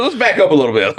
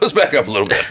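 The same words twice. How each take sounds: First: High put-on voice easing things down; hammed-up placating voice; mock calming. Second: Said in the usual way. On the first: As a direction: pretend to defuse the fight. Mocking the arguing couple.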